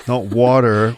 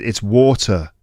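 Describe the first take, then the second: First: "water" mimicked the American way, with an "ah"; mock the American-style "water"; rejected pronunciation. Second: "water" the British way, with an open-mouthed "aw"; child's correction. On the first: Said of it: "just the way I pronounce it". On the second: Acted. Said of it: "And then your kid goes".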